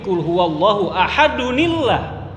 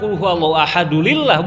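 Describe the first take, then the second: First: An n sound links the two words. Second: No n sound links the two words. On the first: The speaker calls it right. "Kalau disambung jadi" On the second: The speaker calls it wrong.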